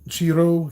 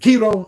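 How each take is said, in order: First: The name begins with a 'ch' sound. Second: The name begins with a 'k' sound. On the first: The speaker calls it wrong. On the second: The speaker calls it right.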